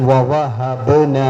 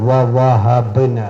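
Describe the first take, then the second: Both takes have the same delivery.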